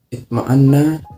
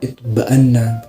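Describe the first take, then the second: First: The word has an m sound after the t. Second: The word has a b sound after the t. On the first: "mengganti mim dengan ba" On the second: "dialek Mazin itu mengganti mim dengan ba"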